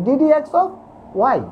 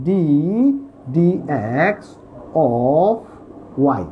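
First: "d dx of y" run together quickly; quick pronunciation. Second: "d dx of y" slowly, word by word with pauses; slow careful pronunciation. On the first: Teacher shows students how to say it faster, quick and joined. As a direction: say "d dx of" in one go, then "y". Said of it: "যদি তাড়াতাড়ি বলতে চাও তাহলে এভাবে". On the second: Teacher shows students the correct reading, slow and careful. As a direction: draw out "d dx of y", pausing between the parts. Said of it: "এটাকে উচ্চারণ হবে". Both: Shown as a demonstration.

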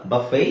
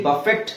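First: ಬಫೆ ending on an open vowel; silent T. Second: ಬಫೆಟ್ with the final T sounded, slow; mispronounced buffet. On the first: Teacher correcting the word, ಬಫೆ with no final T. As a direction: drop the T from ಬಫೆ. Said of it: "silent ಆಗಿರುತ್ತೆ". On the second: Teacher showing what not to say, ಬಫೆಟ್ with T voiced. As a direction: say ಬಫೆಟ್ slowly with a hard T. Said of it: "ಅಲ್ಲ". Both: Shown as a demonstration.

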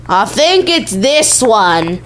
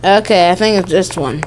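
First: Slow, exaggerated "I think it's this one"; drawn-out. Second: Said in the usual way. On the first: Player choosing which one it is, drawn-out delivery. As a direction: stretch out "this one" with slow, hammy weight.

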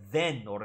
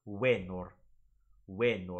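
First: Venor with an English V, VEH-nor. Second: Venor said as wenor, starting with a W; W sound. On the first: Teacher showing the wrong venor with an English V. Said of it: "it's not venor". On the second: Teacher modelling the classical venor with a W. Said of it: "it's venor". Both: Shown as a demonstration.

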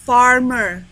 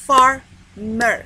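First: Said in the usual way. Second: "Farmer" split into far... mer; "Farmer" syllable by syllable, far, then mer; syllable demonstration. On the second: Shown as a demonstration. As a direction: loudly break "Farmer" into two beats with a gap. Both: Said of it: "One syllable ولا two".

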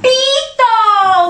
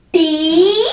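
First: "Pito" as one stretched word, higher; syllables joined. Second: "Pito" split, Pi then to; syllable by syllable. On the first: Teacher revealing the word to children, syllables joined. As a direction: blend "Pito" together as a triumphant reveal. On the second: Teacher asking children what it says, syllable by syllable. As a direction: sound out "Pito" with a pause between Pi and to. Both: Shown as a demonstration. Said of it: "Junto, ¿qué dice?".

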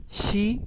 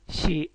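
First: Said in the usual way. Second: "شي" with a short, abruptly stopped vowel; said quickly. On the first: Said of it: "لما يقولوها بسرعة". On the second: Shown as a demonstration. Teacher demonstrating fast Japanese to pupils, "شي" quick and short. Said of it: "لما يقولوها بسرعة يقولوا شي".

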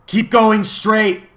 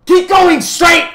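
First: High, loud, slow command; loud urging. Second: Very high, slow, full-out shout. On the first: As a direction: call it out high and drawn out. The voice urges the travellers on. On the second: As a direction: shriek the order, stretching each word. The voice repeats it more forcefully. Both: A narrator's reading.

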